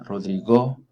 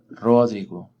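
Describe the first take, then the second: First: The stress is on the last syllable. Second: The stress is on the first syllable. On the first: "La última" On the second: "O la antepenúltima"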